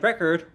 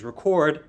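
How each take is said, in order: First: "record" stressed on the first syllable; "record" as the noun, RE-cord. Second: "record" stressed on the second syllable; "record" as the verb, re-CORD. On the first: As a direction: say "record" strong-weak, RE-cord. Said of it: "one being something you listen to music". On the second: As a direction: say "record" weak-strong, re-CORD. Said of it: "something you might do with a tape recorder". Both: Shown as a demonstration.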